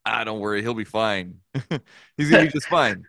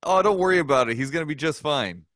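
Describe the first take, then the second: First: Reassurance that breaks into a laugh, louder at the end; chuckling through an easy brush-off. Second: Carefree promise that all will be fine; mock reassurance. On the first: Retold or imitated. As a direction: retell the promise while cracking up. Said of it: "I'm like". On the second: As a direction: brush off a worried parent with easy confidence. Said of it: "It was".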